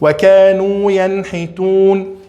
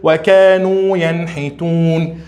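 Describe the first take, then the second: Both takes have the same delivery.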